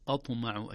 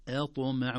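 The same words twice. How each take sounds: First: "أطمع" opened with a thick, dark first vowel; wrongly heavy hamza. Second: "أطمع" with a thin first vowel before the heavy ط; light hamza. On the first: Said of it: "وليست". («أطمع» بتفخيم الهمزة خطأً) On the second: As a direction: keep the opening of "أطمع" light. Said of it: "مثلها". («أطمع» بترقيق الهمزة قبل الطاء) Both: Shown as a demonstration.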